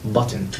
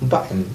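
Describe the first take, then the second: First: The t is a clear t, British style. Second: The t is a glottal stop, American style.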